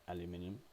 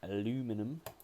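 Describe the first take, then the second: First: The word is said in a non-American way. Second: The word is said the American way.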